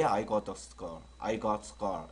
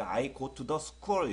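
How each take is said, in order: First: I got the school with the T in got clipped and linked; flicked, linked T. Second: I go to the school with each T sounded fully; syllable-by-syllable English. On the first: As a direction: run got into school, T unreleased. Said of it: "이렇게 튕겨주면 돼요". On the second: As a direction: stiffly sound out every word of I go to the school. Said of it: "이런 것도 이제 I go to the school 이렇게 되면요". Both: Shown as a demonstration.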